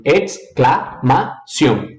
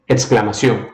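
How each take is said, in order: First: "exclamação" split in four, Spanish ex-cla-ma-ción; broken into syllables. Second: Said in the usual way. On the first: Shown as a demonstration. Teacher breaks the word for students, syllable by syllable.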